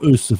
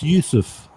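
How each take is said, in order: First: The name starts with a plain vowel sound. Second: The name starts with a Y sound. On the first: The speaker calls it wrong. "It's not" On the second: The speaker calls it right.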